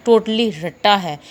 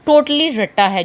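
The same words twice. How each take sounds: First: Said in the usual way. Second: Totally रट्टा है with totally punched high and loud; emphatic insistence. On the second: Real, not acted. Teacher to students, stressing totally loud and high. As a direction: hammer home that shorthand is pure rote learning. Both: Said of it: "जो कि मैंने आपको पहले दिन से बताया है".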